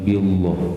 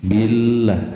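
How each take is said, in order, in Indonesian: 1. Bunyi L-nya berat dan tebal. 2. Bunyi L-nya ringan dan tipis. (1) "bukan billah" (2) "itu ya tipis"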